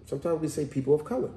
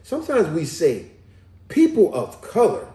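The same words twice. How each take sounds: First: Said in the usual way. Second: PEOPLE OF COLOR louder and higher, set apart; emphatic corrected reading of "people of color"; careful rereading. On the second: Real, not acted. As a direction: read it out deliberately, pausing before "people of color". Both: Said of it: "Let me read that one again".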